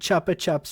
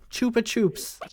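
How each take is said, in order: First: The name is said the British way. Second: The name is said the American way. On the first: "in the U K" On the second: "in the U S"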